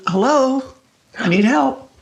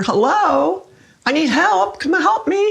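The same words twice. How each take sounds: First: Retold call for help, only a little raised; mild mock call down the hall. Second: Retold cry for help, pitched much higher; a higher, more urgent call that is not truly screamed; louder mock scream. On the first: Calling at night to the helper down the hallway, mildly raised. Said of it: "And I started calling". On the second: Retelling her night calls for the helper, now higher and more urgent. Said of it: "So I started screaming louder".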